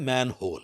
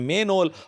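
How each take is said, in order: First: The first vowel is open, as in 'man'. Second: The first vowel is closer, as in 'men'. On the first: The speaker calls it right. "अब लफ्ज है मैन होल" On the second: The speaker calls it wrong. "हम सब के सब उसको कहते हैं मेन होल"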